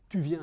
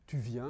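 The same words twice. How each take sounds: First: It is said with a commanding intonation. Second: It is said with a questioning intonation. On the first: The speaker is telling the listener to come. "ça peut être un ordre" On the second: The speaker is asking whether the listener is coming. "ça peut être euh, prononcé avec une intonation de question"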